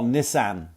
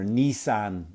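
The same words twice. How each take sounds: First: Nissan is said with an Irish pronunciation. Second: Nissan is said with an American pronunciation.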